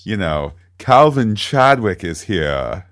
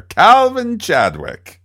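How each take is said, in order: First: Slow, lightly Mid-Atlantic delivery; a hint of old Hollywood Mid-Atlantic; Mid-Atlantic accent. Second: Grand, slow Mid-Atlantic accent, high and loud; old Hollywood Mid-Atlantic drawl. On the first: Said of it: "see, it's easy". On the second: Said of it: "the Mid-Atlantic, uh, accent there". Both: Shown as a demonstration.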